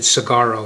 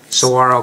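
First: It is said like 'cigarro'. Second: It is said the local way. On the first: The speaker calls it wrong. "When you first move to Tucson, you pronounce it cigarro" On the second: The speaker calls it right. "You have to practice that"

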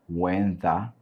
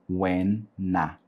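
First: The second word begins with a th sound. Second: The second word begins with an n sound. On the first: "você pode pronunciar when the" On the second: "Tirando o T H e colocando o N"

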